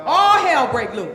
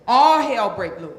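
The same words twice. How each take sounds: First: Very loud chanted line; louder call-and-response. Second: Loud, emphatic chant line; loud call-and-response. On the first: Coach leading the crowd, shouting it louder. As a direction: shout it so the room echoes. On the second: Coach leading the audience, chanting it loud. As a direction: belt it out for the crowd to echo. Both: Acted. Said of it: "say it with me".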